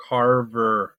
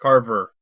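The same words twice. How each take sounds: First: "Carver" stretched out slowly; "Carver" said long, as a correction; drawn-out correction. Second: Said in the usual way. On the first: Shown as a demonstration. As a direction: enunciate "Carver" syllable by syllable. Repeats the name drawn out.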